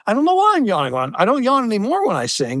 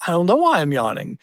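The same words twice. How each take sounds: First: Mock protest. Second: Said in the usual way. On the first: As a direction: insist you really can't help it. Retold teen answering his parents.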